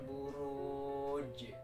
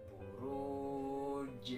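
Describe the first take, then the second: The two takes are said the same way.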